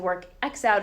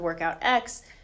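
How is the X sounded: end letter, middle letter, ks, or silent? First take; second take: middle letter; end letter. First: The letter X is spoken in the middle. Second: The letter X is spoken at the end. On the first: "it's not the work X out" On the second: "it's not the workout X"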